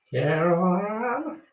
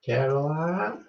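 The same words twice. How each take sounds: First: High, slow, drawn-out calling of the name; creepy southern lady calling. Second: Said in the usual way. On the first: Retold or imitated. Host quoting a film line to her viewers, slow eerie call. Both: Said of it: "It's from a film".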